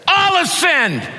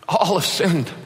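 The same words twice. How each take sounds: First: It is shouted in an angry tone. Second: It is said softly with a sorrowful tone. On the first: Listeners are being scolded. The speaker calls it wrong. "I could shout it to you in anger. I could say it like this" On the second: Everyone shares the failure with compassion. The speaker calls it right. "kind of matter-of-factly. I think he'd say it with a broken heart"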